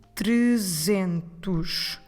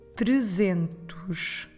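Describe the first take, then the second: No difference in how they are said.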